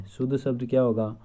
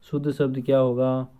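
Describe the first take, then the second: No difference in how they are said.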